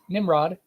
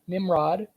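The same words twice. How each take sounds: First: The word is said quickly, the m sounding like b. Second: The word is said slowly and carefully.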